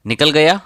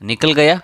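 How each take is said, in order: No difference in how they are said.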